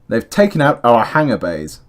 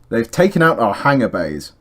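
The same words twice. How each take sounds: First: The word 'our' is said fully as 'our'. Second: The word 'our' is reduced to 'ah'. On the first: The speaker calls it right. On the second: The speaker calls it wrong.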